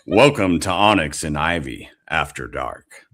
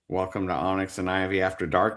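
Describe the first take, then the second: First: It is said in a sexy, seductive voice. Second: It is said in a plain, ordinary voice.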